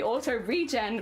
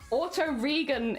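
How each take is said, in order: First: The g in regen is soft, as in regeneration. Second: The g in regen is hard, as in get. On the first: The speaker calls it right. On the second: The speaker calls it wrong.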